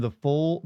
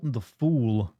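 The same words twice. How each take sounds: First: "fool" said like "foal", rising; slipped pronunciation. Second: "fool" said with long oo, falling; corrected pronunciation. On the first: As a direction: let the vowel of "fool" slip to oh. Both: Shown as a demonstration.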